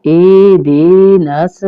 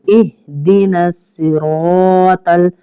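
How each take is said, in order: First: इहदिनस with a louder rising ending; इहदिनस pushed up at the end; wrong ihdinas. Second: इहदिनस सिरातल slow, alif drawn long; इहदिनस with a held s, सिरातल stretched; correct ihdinas. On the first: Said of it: "इस तरह भी नहीं पढ़ेंगे". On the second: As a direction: recite इहदिनस सिरातल properly. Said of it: "अलिफ मद्दा है इसलिए हम इसको थोड़ा सा लंबा". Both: Shown as a demonstration.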